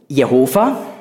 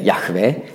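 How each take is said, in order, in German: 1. Der Name endet auf einen 'ova'-Laut. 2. Der Name endet auf einen 'weh'-Laut. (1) "Die falsche Aussprache" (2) "richtig wäre Yahweh"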